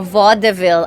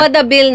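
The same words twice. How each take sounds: First: It is said with the American pronunciation. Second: It is said with the Filipino pronunciation.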